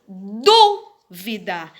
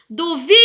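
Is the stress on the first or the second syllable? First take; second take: first; second. First: The stress is on the first syllable. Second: The stress is on the second syllable. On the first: "eu acentuei na antepenúltima sílaba" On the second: "a gente diz que esta é uma palavra paroxítona"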